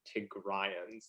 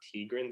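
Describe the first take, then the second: First: The word has an 'ay' sound, like Mayans. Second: The word is said without the 'ay' sound. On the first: The speaker calls it right. "like Mayans kind of thing is Tigrayans" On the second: The speaker calls it wrong. "it's not Tigrans"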